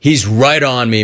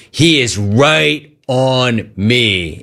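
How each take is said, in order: First: Said in the usual way. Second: Drawn out, every word weighed; slow it right down to insist; slow emphatic repeat. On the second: Shown as a demonstration.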